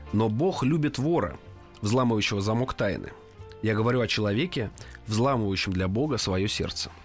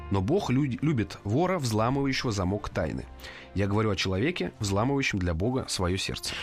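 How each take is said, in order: The two takes are said the same way.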